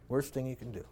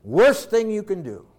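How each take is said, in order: First: "Worst thing you can do" repeated much softer, sinking low. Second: Said in the usual way. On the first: Shown as a demonstration. Preacher repeating his warning to parents, hushed. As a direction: drop to a grave hush. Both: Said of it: "repeated softly".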